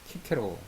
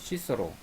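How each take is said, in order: First: The name begins with a K sound. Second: The name begins with an S sound. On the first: This is the Latin reading of the name. "라틴어 발음으로 하면 키케로" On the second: This is the English reading of the name. "영어로 읽으면 시서로"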